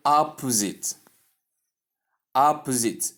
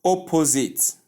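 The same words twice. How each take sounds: First: "opposite" with short first O and weak middle, "OP-uh-zit"; "opposite" with a reduced second syllable; correct opposite. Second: "opposite" with full O sounds, "oh-po-zit"; "opposite" with a long O in the middle; wrong opposite. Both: Shown as a demonstration. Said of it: "It is not opposite".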